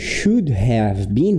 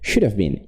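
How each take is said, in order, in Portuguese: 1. Cada palavra é pronunciada completa e separadamente. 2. As palavras se juntam, com 'have' reduzido. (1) "ao invés de should have been" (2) "de uma maneira mais contraída"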